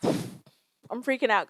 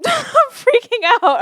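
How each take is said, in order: First: Said in the usual way. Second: "I'm freaking out" said much higher and louder through a laugh; nervous laughing panic. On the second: Real, not acted.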